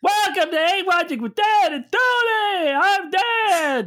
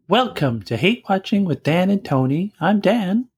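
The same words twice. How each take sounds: First: It is said in a lively, high-energy way. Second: It is said in a flat, low-energy way.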